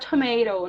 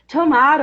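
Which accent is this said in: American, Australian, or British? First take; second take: American; Australian. First: It is spoken with an American accent. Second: It is spoken with an Australian accent. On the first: "nos Estados Unidos, eu vou falar tomato" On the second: "na Austrália, eu vou falar tomato"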